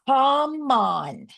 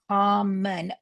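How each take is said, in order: First: The second vowel is a full, unreduced sound. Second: The second vowel is reduced to a schwa. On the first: "they decoded it correctly" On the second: "flex the second O to a schwa"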